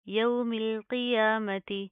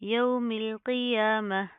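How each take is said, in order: First: The last word ends with a full ti syllable. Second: The last word ends with a soft h sound. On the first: The reading continues without stopping. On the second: The reader stops at this word.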